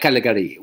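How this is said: The name is said with French pronunciation. "They pronounce the names of places in French and English"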